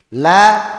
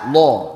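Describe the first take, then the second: First: The L is light with a clear a. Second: The L is heavy with a dark o. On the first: "La harusnya kan di sana" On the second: "huruf lam saat tebal lo lo"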